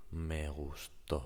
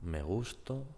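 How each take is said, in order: First: "me gustó" with the final to stressed. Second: "Me gusto" with the stress on gus, rising. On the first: Teacher to viewers: "me gustó", stress on to. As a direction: land on the last syllable of "gustó". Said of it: "gustó, to is the strong syllable". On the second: Teacher to viewers: "Me gusto", stress on gus. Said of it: "the stressed syllable is gus". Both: Shown as a demonstration.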